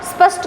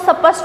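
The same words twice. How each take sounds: First: The word starts directly with the consonant cluster. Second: A vowel is added before the consonant cluster. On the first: The speaker calls it right. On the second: The speaker calls it wrong.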